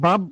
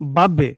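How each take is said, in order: First: The final b is closed off without any bounce. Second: The final b is released with an echoing bounce. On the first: The speaker calls it wrong. "বাব হবে না" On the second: The speaker calls it right. "একটা ধাক্কা দিব"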